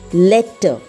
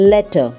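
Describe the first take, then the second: First: The middle consonant is held long and forceful. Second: The middle consonant is short and light. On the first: The speaker calls it wrong. "but it's wrong" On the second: The speaker calls it right. "We have to pronounce it as"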